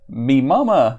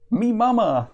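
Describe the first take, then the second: First: Loud cavewoman exclamation, near normal pitch; exclaiming. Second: Cavewoman's high, proud announcement; proud exclamation. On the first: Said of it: "the woman exclaims again". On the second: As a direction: proudly exclaim it, pitched well up. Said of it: "the woman exclaims proudly". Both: Acted.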